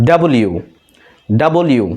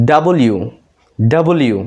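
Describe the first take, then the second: No difference in how they are said.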